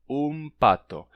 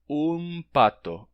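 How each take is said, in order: No difference in how they are said.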